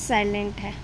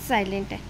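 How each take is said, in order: Both takes have the same delivery.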